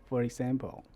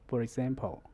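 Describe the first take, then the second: The two takes are said the same way.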